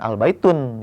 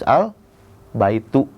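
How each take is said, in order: First: The word ends with an added n sound. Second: The word ends on a plain u vowel. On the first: The speaker calls it wrong. "jangan al baitun" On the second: The speaker calls it right. "harus al baitu"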